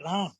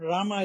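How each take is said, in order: First: The name ends on the m sound. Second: The name ends with a vowel after m. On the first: The speaker calls it right. "it's a Ram" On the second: The speaker calls it wrong. "Rama is not Rama"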